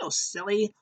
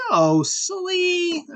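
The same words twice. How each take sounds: First: High, softer imitation; lighter playful correction. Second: Very high, drawn-out puppet-show voice; playful mock scolding. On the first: Alexa correcting the pig, light high imitation. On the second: Puppet show host correcting the pig, high playful scolding. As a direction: stretch it out high and singsong.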